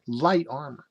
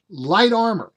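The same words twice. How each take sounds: First: Said in the usual way. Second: High, louder, incredulous exclamation; amazed emphasis. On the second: Real, not acted. Reader floored by the light armor stats, amazed emphasis. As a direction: punch "Light armor" in astonishment.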